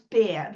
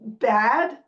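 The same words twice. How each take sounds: First: The word has a Northern Cities shifted vowel. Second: The word has a general American vowel.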